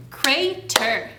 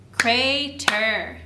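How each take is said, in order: Both takes have the same delivery.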